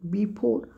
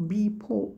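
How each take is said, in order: The two takes are said the same way.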